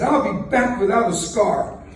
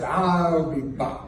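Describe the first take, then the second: First: Confident vow, I'll hit hard; a touch of bravado on I'll; bold promise. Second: Slow, clipped Terminator I'll be back; a light Schwarzenegger impression, x0.5 slow; Terminator line. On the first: Retold or imitated. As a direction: promise it boldly, I'll stressed. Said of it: "Where did that come from?". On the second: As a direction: drop it like the Terminator. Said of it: "Then I could be governor of California".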